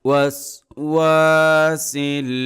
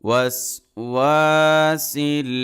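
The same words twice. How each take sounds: The two takes are said the same way.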